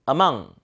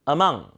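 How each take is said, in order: The two takes are said the same way.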